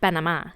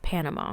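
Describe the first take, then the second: First: It is said with a native Spanish pronunciation. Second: It is said with an ordinary English pronunciation. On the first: The speaker calls it right. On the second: The speaker calls it wrong.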